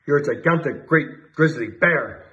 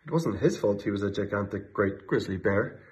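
First: Chief shouting, slow and drawn out; shouted. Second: Said in the usual way. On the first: A narrator's reading. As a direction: stretch out great grizzly bear slowly. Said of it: "shouted the chief of police". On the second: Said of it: "plain narration".

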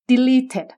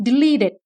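First: Second "deleted" as de-lee-ted, aspirated t; clear middle t. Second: First "deleted" as de-lee-ded; softened middle t. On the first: Teacher offers second variant, crisp t in deleted. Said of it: "หรือ". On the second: Teacher offers first variant, d-like middle in deleted. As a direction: voice the t of "deleted" toward a d. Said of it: "หรือ t". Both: Shown as a demonstration.

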